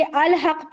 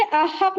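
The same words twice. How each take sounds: First: अल हक with the lam clearly sounded, al-haq; अल हक pronounced al-haq, lam kept; correct reading. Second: अहक said without the lam, a-haq; अहक spoken as a-haq, lam dropped; wrong reading shown. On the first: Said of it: "पढ़ेंगे". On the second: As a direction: show the mistake, अहक with no l. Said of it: "नहीं पढ़ेंगे". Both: Shown as a demonstration.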